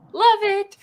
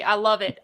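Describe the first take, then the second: First: Much higher, louder, gushing "love it"; emphatic delight. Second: Said in the usual way. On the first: Real, not acted. Host gushing to the whiskey maker, excitedly. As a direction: throw "love it" up high with real delight.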